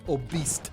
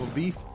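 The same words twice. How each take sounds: First: The word sounds like it ends in 'beast'. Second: The word ends in a plain 'beese' sound. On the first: The speaker calls it wrong. "My wife always says obese" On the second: The speaker calls it right. "instead of obese"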